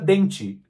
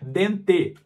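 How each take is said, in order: First: The word ends with an 'ee' vowel sound. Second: The word ends with an 'eh' vowel sound. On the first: "parece que essa palavra termina com i" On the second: "quando na realidade seria dente"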